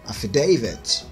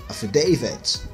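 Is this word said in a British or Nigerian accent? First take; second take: British; British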